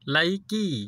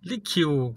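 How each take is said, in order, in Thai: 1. ชื่อนี้อ่านว่า 'Laiki' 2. ชื่อนี้อ่านว่า 'Likiu' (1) "บางเว็บก็บอกว่าไลกี้" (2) "บางคนก็บอกว่าลิคิว"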